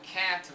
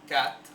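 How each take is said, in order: First: It has the American English 'cat' vowel. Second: Its vowel is replaced by a Spanish 'a'.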